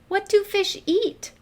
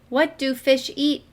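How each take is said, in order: First: It is read lively, with expression. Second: It is read flatly, without expression.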